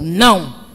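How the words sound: It is said in an angry tone.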